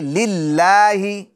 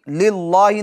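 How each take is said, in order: First: The L is pronounced thin and light. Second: The L is pronounced thick and heavy. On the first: The speaker calls it right. "बारीक पढ़ेंगे" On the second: The speaker calls it wrong. "नहीं"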